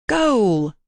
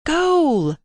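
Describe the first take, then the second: First: Loud, high cry of goal; first goal call, already raised; shouted goal. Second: Much higher, louder cry of goal; higher shouted goal. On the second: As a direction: let the second goal soar even higher. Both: A narrator's reading. Boys playing football in pool.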